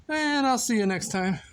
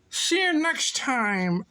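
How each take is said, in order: First: Said in the usual way. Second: Slow, high, slurred farewell; silly sign-off. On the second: Pretend. Goodbye to viewers as alligators, silly drawn-out voice. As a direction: stretch it out high and goofy.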